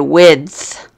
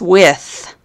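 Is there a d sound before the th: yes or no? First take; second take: yes; no. First: A d sound comes before the final th. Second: The word ends in th with no d sound. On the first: The speaker calls it right. "You say width" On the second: The speaker calls it wrong. "you do not say this with"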